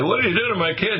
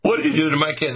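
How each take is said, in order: First: Put-on much higher, amazed "What did you do to my kid?" with rising "did"; amazed parent. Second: Parent asking. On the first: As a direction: ask it as a stunned, delighted parent. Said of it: "And they say". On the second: Retold or imitated. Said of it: "and they say".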